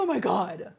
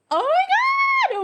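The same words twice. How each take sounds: First: Said in the usual way. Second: Very high, loud, slow "Oh my God"; thrilled shriek. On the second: Real, not acted. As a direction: squeal it out, overwhelmed with delight. Thrilled by her own look.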